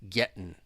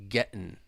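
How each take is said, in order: No difference in how they are said.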